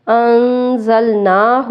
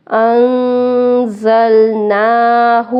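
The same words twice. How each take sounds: First: انزلناہ with the final hu wrongly stretched; common mistake. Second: انزلناہ slow with short final hu; correct reading. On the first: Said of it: "ہو کو کھینچ دیتے ہیں". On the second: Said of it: "ہو کو نہیں کھینچیں گے". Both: Shown as a demonstration.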